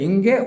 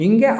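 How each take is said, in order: No difference in how they are said.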